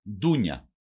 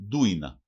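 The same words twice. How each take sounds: First: Said in the usual way. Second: Ντούινα as DOO-ee-na, the i before the n; dialect variant pronunciation. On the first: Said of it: "Προφέρεται και ως ντούινα". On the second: Shown as a demonstration. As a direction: say ντούινα with a plain n after "ui". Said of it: "Προφέρεται και ως".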